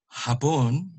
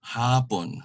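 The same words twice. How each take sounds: First: HAPON as Japanese, short HA and stressed PON; final-syllable stress. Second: HAPON as afternoon, long HA and falling PON; first-syllable stress. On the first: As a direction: put the weight on PON in HAPON. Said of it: "word for Japanese". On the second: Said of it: "that is the afternoon". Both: Shown as a demonstration.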